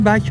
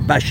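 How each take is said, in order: First: The word ends with a k sound. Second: The word ends with an sh sound. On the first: The speaker calls it wrong. "pas bac" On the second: The speaker calls it right. "ils disent bâche ici"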